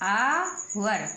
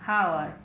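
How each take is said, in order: First: The word begins directly with a vowel sound. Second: The word begins with an audible h sound. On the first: The speaker calls it right. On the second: The speaker calls it wrong.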